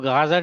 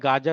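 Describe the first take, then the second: First: It begins with a throaty fricative gh sound. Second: It begins with a plain hard g sound. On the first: The speaker calls it wrong. "वो गाजर नहीं होता है" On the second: The speaker calls it right. "गाजर होता है, गाफ है"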